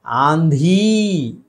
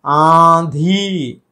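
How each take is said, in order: First: आंधी with a full "n" consonant; wrong oral n. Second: आंधी with nasalised aa, no n; through the nose. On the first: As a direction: say "aan-dhee" for आंधी. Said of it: "आंधी नहीं है". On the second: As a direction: slowly stretch both vowels of आंधी. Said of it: "नाक से". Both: Shown as a demonstration.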